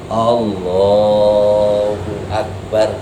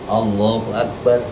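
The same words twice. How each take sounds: First: The phrase is drawn out long. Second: The phrase is said short and quick. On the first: The remembrance fills the whole movement without a gap. The speaker calls it right. "Yang bagus" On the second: The movement is left partly empty of remembrance. The speaker calls it wrong. "Jangan begini"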